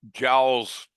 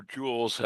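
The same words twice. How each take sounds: First: "joules" said to rhyme with owls; "joules" with the vowel of "cow"; alternative pronunciation. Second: "joules" to rhyme with "tools"; alternative pronunciation. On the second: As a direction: say "joules" with a long OO vowel. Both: Shown as a demonstration. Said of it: "however you want to pronounce it".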